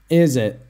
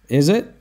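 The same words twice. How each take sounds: First: The pitch falls at the end. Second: The pitch rises at the end. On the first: It confirms what was said and shows listening. "Remember the down intonation" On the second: It genuinely asks for information. "Or a genuine question"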